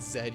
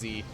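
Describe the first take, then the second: First: The letter is said as zed. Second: The letter is said as zee. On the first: This is the Canadian way to say it. The speaker calls it wrong. "if you're a Canadian or whatever. You pronounce it Zed" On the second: This is the American way to say it. The speaker calls it right. "I'm an American. It's pronounced Z"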